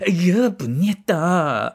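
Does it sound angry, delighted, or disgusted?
disgusted. It sounds like grossed-out disgust.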